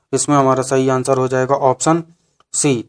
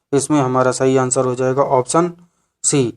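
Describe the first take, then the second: The two takes are said the same way.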